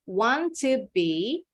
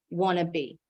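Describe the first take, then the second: First: The word 'to' is said fully and separately. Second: The 'to' is merged into 'wanna'. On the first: "the native English speakers pronounce want to be becomes" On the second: "In everyday conversation, the native English speakers pronounce want to be becomes wanna be"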